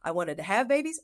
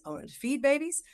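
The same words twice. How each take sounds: First: Said in the usual way. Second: The whole line lifted higher; emphatic lift. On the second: Real, not acted. Telling the host what she longed for, lifted higher. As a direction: lean into it, higher and brighter.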